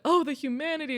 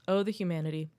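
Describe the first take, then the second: First: It is said with dramatic despair. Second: It is said flatly, matter-of-factly.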